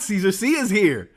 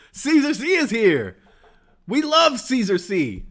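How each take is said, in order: First: Bright, eager announcement; excited. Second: High, slow, gushing fan squeal. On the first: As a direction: read it like a thrilled fan. Reads chat excitedly, first take. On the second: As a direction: stretch it out like a starstruck fan. Repeats it bigger, slower. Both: Retold or imitated.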